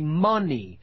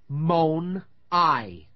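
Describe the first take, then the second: First: The word ends with an 'ee' sound. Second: The word ends with an 'eye' sound. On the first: The speaker calls it right. "We say money" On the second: The speaker calls it wrong. "Now that isn't how we pronounce it"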